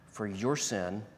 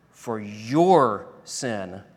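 First: "your" said quietly with a light lean; quiet stress on your. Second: "your" stretched very slowly and said louder; stress on your. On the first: Preacher quietly pointing at the listener's sin, stress on "your". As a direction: lay soft weight on "your" in "for your sin". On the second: Preacher hammering home whose sin it was, slow loud "your". Pointed repeat for contrast. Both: Acted.

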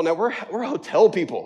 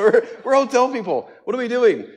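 First: Laughing wife. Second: High, louder laughing repeat; louder, giddier repeat of the wife's line; laughing harder. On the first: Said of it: "That's what she said". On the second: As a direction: crack up on the punchline. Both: Retold or imitated.

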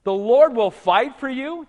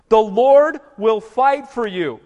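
First: "The Lord will fight for you?" slow with a rising question tune; astonished repeat; incredulous question. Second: Slow, louder, higher declaration of "The Lord will fight for you"; weighty pulpit announcement; solemn proclamation. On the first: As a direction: ask it back in mock disbelief. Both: Shown as a demonstration. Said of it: "Wait a minute".

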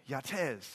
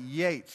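First: Yatez in two syllables, ya-TEZ; mispronounced surname. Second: Said in the usual way. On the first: Retold or imitated. Locals repeat his name back wrong, mispronouncing Yatez as ya-TEZ. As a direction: stretch Yatez into ya-TEZ, stress at the end. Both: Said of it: "how do you pronounce your name".

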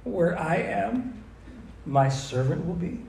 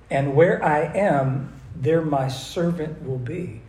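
First: Where I am, my servant will be? asked slowly, rising on am and be; slow questioning echo. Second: And where I am, there my servant will be, slow with weight on where and there; slow emphatic reading. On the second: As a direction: read it slowly, lean on where and there. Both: Shown as a demonstration. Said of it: "Does that sound like proximity?".

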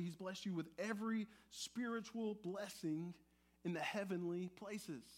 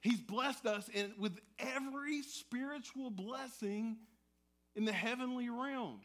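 First: Said in the usual way. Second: Fired up. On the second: Shown as a demonstration. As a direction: proclaim it like great news. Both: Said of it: "Let's hear that again".

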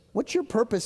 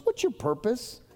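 First: Repeated with a firm falling tune; falling insistent repeat. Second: Asked with a rising, searching tune; rising question. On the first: Pastor presses the church on its purpose, falling firmly. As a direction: press the question home, landing it hard. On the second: Pastor asks the church what's your purpose, rising. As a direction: pose it as a real question to the room. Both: Acted. Preacher repeats question to congregation.

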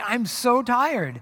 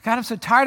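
First: Slow, drawn-out I'm so tired; mock exhausted complaint, slow; weary sigh. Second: Said in the usual way. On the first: Shown as a demonstration. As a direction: let the tiredness drag every word. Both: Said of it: "several of those discussions lately".

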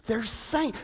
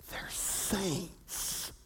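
First: Said in the usual way. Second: Hushed whisper. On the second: Real, not acted. Repeated, first whispered.

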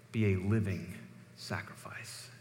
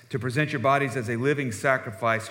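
First: Be a living sacrifice fading into an unvoiced whispered sacrifice; hushed emphasis. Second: Said in the usual way. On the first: Real, not acted. Preacher to congregation, whispering sacrifice with hushed weight. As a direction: let sacrifice fall to a breath. Preacher drops voice on key phrase.

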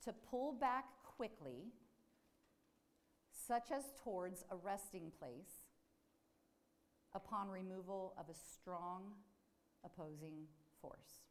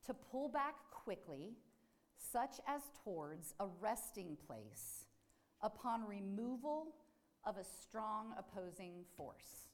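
First: Slow repeated reading. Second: Slow deliberate reading. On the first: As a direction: repeat the definition slowly, with long pauses. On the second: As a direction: read the definition slowly, word by word. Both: Shown as a demonstration. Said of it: "I'll say that again".

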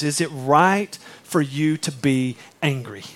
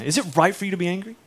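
First: Slow, heavy rhetorical question; slow quoted question. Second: Faster, lighter read of the question; brisk repeat of the question; quick quoted question. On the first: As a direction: let the question hang slowly. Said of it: "and he goes". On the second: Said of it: "that's God's question to Jonah". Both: Shown as a demonstration.

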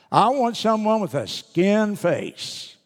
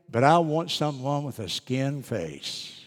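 First: Put-on higher, slow pleading little boy; pleading child. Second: Said in the usual way. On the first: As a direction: plead slowly like a small child. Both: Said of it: "the little boy's reply was just precious".

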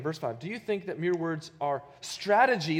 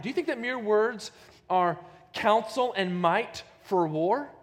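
First: Said in the usual way. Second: «counsel» и «might» выделены, громче и выше; stress on counsel and might. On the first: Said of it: "look at those words again". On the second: Shown as a demonstration. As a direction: lean on counsel and might, louder. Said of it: "that same word for counsel".

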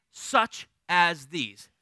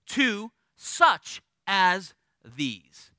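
First: "such as these" said very slowly, every word weighted; stress the phrase. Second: Slowed way down on "to such as these", each word weighted; slow emphasis. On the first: Pastor telling note takers to highlight "such as these". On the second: Preacher drawing out "such as these" for the note takers. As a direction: lean on "such as these" slowly. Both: Shown as a demonstration.

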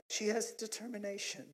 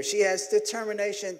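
First: Soft, gentle imitation of a wife; uplifting wife. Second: Said in the usual way. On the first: Wife rewording his goat remark, soft and uplifting. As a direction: say it delicately, much softer. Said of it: "women always got the uplifting words".

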